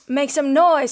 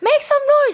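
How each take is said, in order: First: It is said in a calmer, lower way. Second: It is shouted with high excitement.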